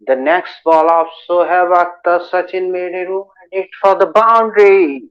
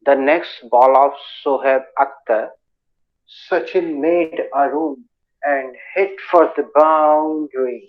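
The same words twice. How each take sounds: First: The sentence is spoken at a normal speed. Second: The sentence is spoken very slowly.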